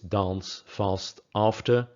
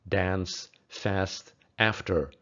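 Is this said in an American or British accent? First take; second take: British; American. First: The vowel is a long broad ah sound. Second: The vowel is a short flat a sound. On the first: "in British English" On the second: "In American English"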